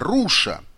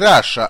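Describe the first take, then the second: First: The first vowel is a rounded 'oo' sound. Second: The first vowel is an open 'ah' sound.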